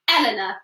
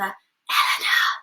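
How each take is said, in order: First: The name is spoken in a normal voice. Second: The name is whispered very quietly. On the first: "I'm going to say my name" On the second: "I'm going to whisper"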